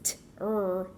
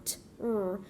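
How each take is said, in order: No difference in how they are said.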